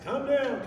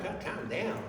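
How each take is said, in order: First: A loud, higher mock shout of calm down; half-acted guard yelling calm down; retold guard's shout. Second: Said in the usual way. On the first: Guard yells at the grieving father to calm down, loud. Guard restraining him outside.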